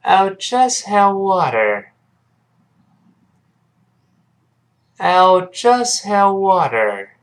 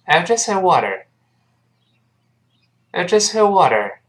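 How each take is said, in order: First: Very slow, high-pitched drill line; slow model reading. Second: Quick, higher-pitched drill line; faster model reading. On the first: Teacher leading students to read along, very slowly. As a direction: draw every word out for learners to follow. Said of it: "跟老师先慢慢读起来". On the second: Teacher has students repeat a bit faster, briskly. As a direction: run the words together at a brisk pace. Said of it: "注意，再快点儿". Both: Shown as a demonstration.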